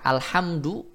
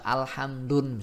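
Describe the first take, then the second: First: The word ends on a vowel without n. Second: The word ends with an added n sound. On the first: The speaker calls it right. "itu tidak boleh diberikan nun sukun atau tanwin" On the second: The speaker calls it wrong. "Tak bisa alhamdun misalkan"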